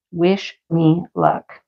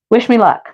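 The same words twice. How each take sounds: First: Slow wish me luck. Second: Said in the usual way. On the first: Real, not acted.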